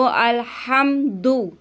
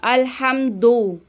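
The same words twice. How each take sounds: First: अलहम्दु ending in a rounded "du"; correct reading. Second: अलहम्दु ending in a short "do"; wrong reading. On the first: Teacher showing the right ending. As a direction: end अलहम्दु on "du". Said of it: "इसको दू पढ़ना है". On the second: Teacher imitating the common wrong ending. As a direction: end अलहम्दु on "do". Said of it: "ये भी गलती करती हैं". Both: Shown as a demonstration.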